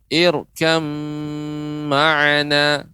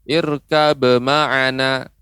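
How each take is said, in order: First: The b merges into a lengthened nasal m. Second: The b sound is pronounced before the m. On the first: The speaker calls it right. "Yang benar" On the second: The speaker calls it wrong. "Ini namanya bukan idgham"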